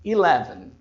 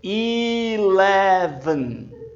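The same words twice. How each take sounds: First: The first syllable is light and unemphasized. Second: The first syllable is strongly emphasized. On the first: The speaker calls it right. "Você diz eleven" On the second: The speaker calls it wrong. "você não precisa dar muita ênfase a ele também, dizer eleven"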